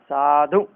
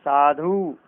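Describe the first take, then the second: First: साधु with a short final "u"; correct short ending. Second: साधु with a drawn-out "oo"; wrong long ending. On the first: Teacher giving the correction, साधु with short final vowel. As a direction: end साधु briskly on "u". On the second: Teacher rejecting the error, साधु with long final vowel. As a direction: say साधु as "saadhoo". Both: Shown as a demonstration. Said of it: "साधु नहीं".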